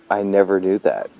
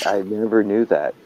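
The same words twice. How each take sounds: The two takes are said the same way.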